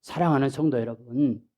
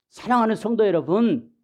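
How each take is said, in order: First: Said in the usual way. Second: 사랑하는 성도 여러분 with heightened earnest stress; emphatic preacher call. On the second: Real, not acted. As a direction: call the congregation with rising fervor.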